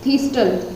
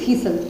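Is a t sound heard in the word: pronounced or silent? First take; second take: pronounced; silent. First: The t sound is pronounced in the middle. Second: The t sound is silent in the middle. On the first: The speaker calls it wrong. "टल तो नहीं बोलना, sorry मैं भी गलती बोल बोल गई थी" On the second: The speaker calls it right. "टी तो हमें साइलेंट रखना है"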